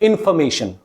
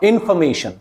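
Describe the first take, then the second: No difference in how they are said.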